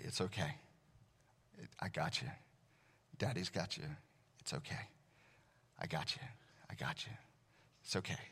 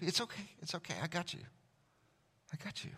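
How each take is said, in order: First: Put-on soft, hushed comforting to a child; soothing a child. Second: Soft, higher comforting murmur; soothing a child. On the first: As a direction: murmur it close into her ear. Dad soothing daughter's night terror. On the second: Retold or imitated. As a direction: reassure like holding a scared child. God soothing like a dad.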